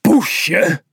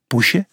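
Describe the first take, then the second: First: Poesje thrown back high and loud, falling; indignant. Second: Teasing little rise on poesje; taunting. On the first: The insulted cat repeats the taunt, indignant. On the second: The opponent mocks the big cat, teasing poesje. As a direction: sneer poesje up at the end. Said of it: "jengde hij". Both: A narrator's reading.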